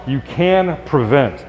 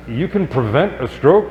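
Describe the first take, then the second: First: "You can prevent." said slowly as a firm statement with falling tune, stress on "can"; declarative statement. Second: Rising question tune on "You can prevent a stroke?", pitch lifting on "stroke"; surprised question. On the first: Shown as a demonstration. Doctor restating the sponsor's question as a statement, slow firm fall. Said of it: "This is a declarative statement". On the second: Retold or imitated. Sponsor Bill asking the doctor, a rising incredulous question. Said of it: "we turned his question into a statement".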